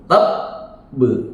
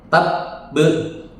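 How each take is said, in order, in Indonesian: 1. Huruf b ganda ditahan, lalu memantul. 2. Huruf b langsung terputus, tanpa pantulan. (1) "Dia memantul tab be, tapi tahan dulu" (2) "tab be itu nggak mantul"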